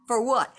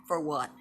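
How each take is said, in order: First: Louder, higher outraged repeat of the question; indignant shout. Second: Said in the usual way. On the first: Real, not acted. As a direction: throw the question out angrily.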